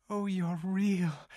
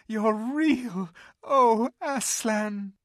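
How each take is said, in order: First: Higher, slow, wondering joy; joyful cry. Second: Much higher, louder, slow cry of relief; joyful cry. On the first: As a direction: realise it with dawning joy. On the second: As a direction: burst out in full joy. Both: Acted. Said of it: "cried Lucy".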